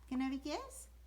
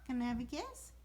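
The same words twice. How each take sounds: The two takes are said the same way.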